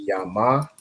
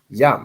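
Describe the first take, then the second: First: It is said as two syllables, ending in a vowel. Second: It is said as one syllable, with no final vowel. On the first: The syllables are not joined together. The speaker calls it wrong. "So instead of being yama" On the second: The syllables are joined together. The speaker calls it right. "the a drops off at the end"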